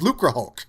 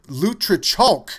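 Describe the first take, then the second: First: The name ends with a 'hulk' sound. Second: The name ends with a 'chalk' sound. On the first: The speaker calls it right. "I always thought it was Lucre Hulk" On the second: The speaker calls it wrong. "calls it Lutrichalk, which I don't think is actually correct"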